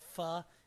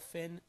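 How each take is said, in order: First: It is said with a French pronunciation. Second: It is said with an English pronunciation. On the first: "Finn is pronounced in French" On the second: "I say L. Finn"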